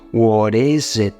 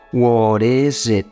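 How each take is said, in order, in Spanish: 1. La t se convierte en un flap suave, parecido a una r. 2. La t se convierte en un flap suave, parecido a una r.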